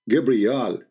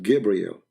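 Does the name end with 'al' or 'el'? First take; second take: al; el. First: The name ends with an 'al' sound. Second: The name ends with an 'el' sound. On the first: This is the ancient form of the name. The speaker calls it right. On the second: This is the later form of the name. The speaker calls it wrong.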